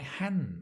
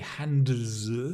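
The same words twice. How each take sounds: First: The D sound is dropped before the S. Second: The D sound is pronounced before the S. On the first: The speaker calls it right. "So we have this elision. The D sound disappears" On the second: The speaker calls it wrong. "We don't say hands. It's impossible. There are three consonants"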